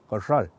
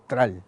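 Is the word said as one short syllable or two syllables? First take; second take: two syllables; one syllable. First: The word is said fully with two syllables. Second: The word is clipped to one short syllable. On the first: The speaker calls it right. "es carral" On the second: The speaker calls it wrong. "no es que tral"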